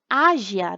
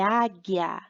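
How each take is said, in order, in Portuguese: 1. O G soa suave, como o som de zh. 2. O G soa forte, como em go. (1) "fica ágia, né? Fica errado" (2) "é águia. Para ter som de G"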